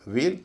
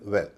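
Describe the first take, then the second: First: "वेल" as veil with long ay; long vowel. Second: "वेल" as well with short e; short vowel. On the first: Teacher contrasting veil with well, long vowel. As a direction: hold the ए in "वेल". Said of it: "ए जो है लंबा है". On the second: Teacher contrasting well with veil, short vowel. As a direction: round the w, keep "वेल" brief and open. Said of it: "ए जो छोटा है". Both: Shown as a demonstration.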